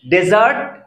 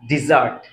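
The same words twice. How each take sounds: First: ডেজার্ট with a short open de, stress late on zart; dessert said as dezart. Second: ডেজার্ট low, starting di, stress on the first syllable; desert said as dizart. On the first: Teacher contrasting desert and dessert, saying ডেজার্ট as de-ZART. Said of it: "আর হচ্ছে ডেজার্ট". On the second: Teacher contrasting desert and dessert, saying ডেজার্ট as DI-zart. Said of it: "এই যে ডেজার্ট". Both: Shown as a demonstration.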